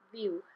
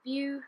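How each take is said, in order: First: "view" as Welsh "view", short falling ew; "view" said Welsh-style, falling. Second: "view" as Welsh "view", no long oo at the end; "view" said the Welsh way, short final oo. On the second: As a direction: say "view" with a short clipped ew glide. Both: Shown as a demonstration. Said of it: "you don't have the same oo sound at the end".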